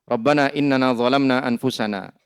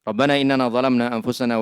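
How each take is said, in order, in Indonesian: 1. Setelah 'anfusana' ada titik henti dan jeda. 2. Suaranya terus berlanjut melewati 'anfusana' tanpa jeda. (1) "Itu kadang sama khatibnya dipotong-potong itu" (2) "Baca dulu sampai selesai, baru jeda"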